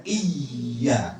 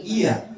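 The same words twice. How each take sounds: First: Iya with a long held y, iy-ya; doubled y. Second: Said in the usual way. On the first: Shown as a demonstration. Teacher shows what tasydid does, doubled letter. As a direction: lean slowly on the y in iya. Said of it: "fungsinya menggandakan huruf". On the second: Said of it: "bukan iya".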